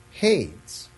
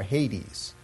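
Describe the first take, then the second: First: "Hades" said as one syllable, rhyming with "shades"; one-syllable pronunciation. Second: "Hades" in two syllables, HAY-deez; proper Greek pronunciation. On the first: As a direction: say "Hades" like "haydz", with a silent e. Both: Shown as a demonstration. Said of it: "as I think it is properly pronounced".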